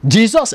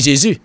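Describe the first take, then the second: First: The name is pronounced the English way. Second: The name is pronounced the French way. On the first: "ça l'a dit. Jesus" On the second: "anglais a pas dit Jésus"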